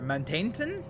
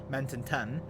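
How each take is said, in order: First: The middle syllable is fully said like 'taint'. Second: The middle syllable is reduced, as in 'mountain'. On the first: "you got a hot spicy taint in the middle" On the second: "mountain, as in like the word mountain, and then ton"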